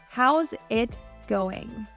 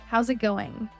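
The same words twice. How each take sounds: First: The words are said separately and clearly. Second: The words how's and it run together.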